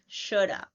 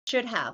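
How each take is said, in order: First: 'Have' is reduced to a schwa. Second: 'Have' is said in full. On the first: "same thing" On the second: "same thing"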